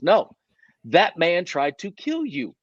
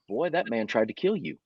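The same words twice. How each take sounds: First: No, that man tried to KILL you, slow and firm; insisting slowly, leaning on kill; slow insistent repeat. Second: Said in the usual way. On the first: Retold or imitated. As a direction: drag it out, stressing KILL. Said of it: "And he goes". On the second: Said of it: "and he goes".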